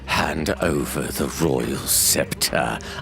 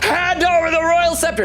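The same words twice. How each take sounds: First: It is said quietly and with focus. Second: It is yelled loudly and out of control.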